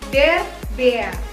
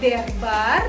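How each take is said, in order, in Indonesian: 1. Vokalnya adalah bunyi 'e'. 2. Vokalnya adalah bunyi 'a' terbuka. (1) "tapi der Bär. Karena A umlaut dibaca huruf E" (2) "Jadi bukan der bar dibacanya"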